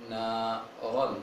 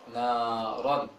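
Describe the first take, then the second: No difference in how they are said.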